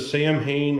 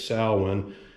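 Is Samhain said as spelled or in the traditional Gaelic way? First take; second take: as spelled; traditional Gaelic. First: The word is pronounced as it is spelled. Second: The word is pronounced the traditional Gaelic way. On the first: The speaker calls it wrong. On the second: The speaker calls it right.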